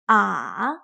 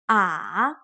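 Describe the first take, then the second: Both takes have the same delivery.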